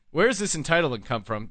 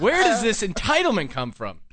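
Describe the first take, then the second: First: Said in the usual way. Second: Raised, loud, laughing through it; laughing outrage. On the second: Real, not acted. Host ranting to Logan through laughter. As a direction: laugh out the indignant question.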